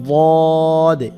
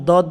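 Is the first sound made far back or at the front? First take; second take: back; front. First: The first sound is made with the tongue root. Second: The first sound is made with the tongue tip. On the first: The speaker calls it right. "ওয়াদে জিব্বার গোড়া দিয়ে" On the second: The speaker calls it wrong. "অনেকে দদ বলে, দদ বললে জিব্বার আগা দিয়ে উচ্চারণ হয়"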